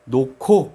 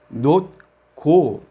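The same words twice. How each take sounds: First: 놓고 run together, with ㅎ and ㄱ merged into an aspirated K; pronunciación real. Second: 놓고 read as written, the two syllables cut apart; como se escribe. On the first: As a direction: say 놓고 as spoken, "no-ko" with a puff on the K. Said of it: "pero pronunciamos como". (놓고 pronunciado unido, con una K aspirada) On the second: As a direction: say 놓고 letter by letter, split into two separate syllables. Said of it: "Está escrito". (놓고 leído tal como se escribe, sílaba por sílaba) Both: Shown as a demonstration.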